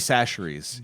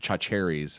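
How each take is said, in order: First: The name begins with an 's' sound. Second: The name begins with a 'ch' sound. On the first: The speaker calls it right. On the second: The speaker calls it wrong.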